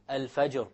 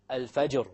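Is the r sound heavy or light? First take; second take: heavy; heavy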